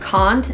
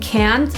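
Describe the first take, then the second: First: It is said with an Australian-sounding accent. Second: It is said without the Australian-sounding accent. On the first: "I got used to saying can't" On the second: "instead of saying can't"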